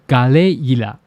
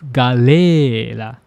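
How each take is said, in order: First: The middle vowel glides into an i sound. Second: The middle vowel is one long stretched sound. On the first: "with katakana I here" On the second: "to stretch the vowel sound"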